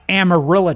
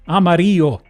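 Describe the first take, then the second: First: It is pronounced with English sounds. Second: It is pronounced with Spanish sounds. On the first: It is the name of the Texas city. "We got Amarillo, Texas" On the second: It is the Spanish word for yellow. "the color yellow"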